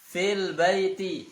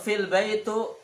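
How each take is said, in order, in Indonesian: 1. Kata terakhir diakhiri vokal i. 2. Kata terakhir diakhiri vokal u. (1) "Yang benar fil baiti, barisnya di bawah"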